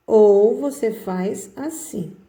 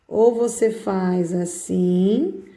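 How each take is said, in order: First: Slow, with a falling close; slow demo. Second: Drawn out slowly while writing; slow demo. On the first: Teacher slowly showing the second way to write the capital. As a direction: draw it out, landing the end. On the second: Teacher slowly showing the first way to write the capital. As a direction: stretch each word as you draw the letter. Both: Shown as a demonstration.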